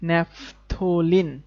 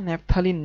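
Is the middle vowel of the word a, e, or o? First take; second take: o; a. First: The middle syllable has an o vowel. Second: The middle syllable has an a vowel. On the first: The speaker calls it right. "এটার উচ্চারণ কিন্তু ন্যাফথলিন" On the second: The speaker calls it wrong. "না"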